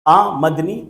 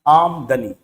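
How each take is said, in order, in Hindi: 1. d दूसरा अक्षर बंद करता है: aamad-ni। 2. m पहला अक्षर बंद करता है: aam-dani। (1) "अब बताओ कौन सा हाफ है? द है" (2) "लेकिन मां आधा है तो यहां लगा देंगे हलंत"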